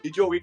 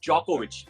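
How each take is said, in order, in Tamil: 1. பெயர் D ஒலியில் தொடங்குகிறது. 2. பெயர் J ஒலியில் தொடங்குகிறது. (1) "டிஜோவிக் கிடையாது" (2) "அந்த ஜோகோவிச்ல டி சைலண்ட்"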